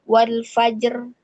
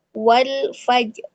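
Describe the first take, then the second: First: Wal fajr with the ra thin and light; wrong light ra. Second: Wal fajr, slow, with a thick heavy ra; right heavy ra. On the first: Teacher showing the wrong thin ra in wal fajr. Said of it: "bukan dibacanya". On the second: Teacher giving the correct heavy ra in wal fajr. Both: Shown as a demonstration.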